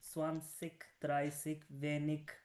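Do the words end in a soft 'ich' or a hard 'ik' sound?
hard ik. The word endings are a hard 'ik' sound. This is how people speak in Bavaria. "अभी मैं इस इस वक्त बवेरिया में हूँ, तो यहाँ पे"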